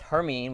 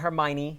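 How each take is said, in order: First: The name is said with two syllables. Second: The name is said with four syllables. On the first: The speaker calls it right. "It's Hermine" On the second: The speaker calls it wrong. "It's it's not Hermione"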